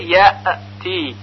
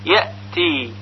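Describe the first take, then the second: First: The hamza is released with an echoing bounce. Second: The hamza stops cleanly with no echoing bounce. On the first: The speaker calls it wrong. "غلط هست، چون همزه که ساکن هست قلقله پیدا کرده" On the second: The speaker calls it right. "پس صحیح اون این طور هست"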